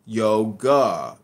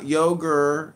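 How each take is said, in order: First: YOGA pressed hard, ending in AH; louder YO-GAH, no R; corrective pronunciation. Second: YOGUR with an R on the end; slow mocking yogur, final R sounded; mimicked mispronunciation. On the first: Real, not acted. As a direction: drill yoga with an open final AH. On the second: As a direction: drag yogur out to a hard ER. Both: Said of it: "It's not an R at the end".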